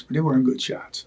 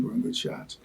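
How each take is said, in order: First: Said in the usual way. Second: They weren't good shots whispered, much softer; whispered aside. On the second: Real, not acted. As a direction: drop to a confiding whisper. Honest aside, repeated.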